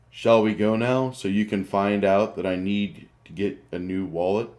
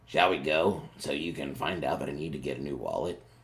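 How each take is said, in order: First: It is said in a voice other than Grick's. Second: It is said in Grick's character voice.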